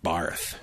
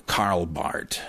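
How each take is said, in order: First: "Barth" with a th ending; wrong pronunciation. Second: "Barth" as BART, slowly; silent H. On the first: Warning against the mistake, "Barth" with th. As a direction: let "Barth" end in a soft th. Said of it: "not Barth". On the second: Separating two similar names, "Barth" as BART. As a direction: finish "Barth" on a hard t. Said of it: "but pronounced Barth". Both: Shown as a demonstration.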